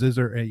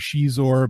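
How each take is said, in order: First: The name begins with a z sound. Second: The name begins with a sh sound. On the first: "but then it's Zizor" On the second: "the chair said it wrong"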